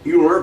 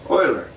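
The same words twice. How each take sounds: First: The name is said as its spelling suggests in English. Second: The name is said with a German pronunciation. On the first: The speaker calls it wrong. "it looks like it should be not pre-pronounced Euler" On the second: The speaker calls it right. "Germans would pronounce it Euler"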